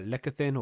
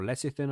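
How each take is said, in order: First: "lecithin" said with a K sound, LEK-ithin; pronunciation with hard C. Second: "lecithin" said with an S sound, LESS-ithin; pronunciation with soft C. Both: Shown as a demonstration. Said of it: "I don't know how to say it properly".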